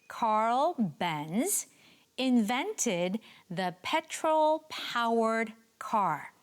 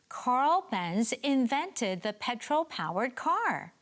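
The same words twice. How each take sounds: First: It is said at a normal pace. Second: It is said a little faster.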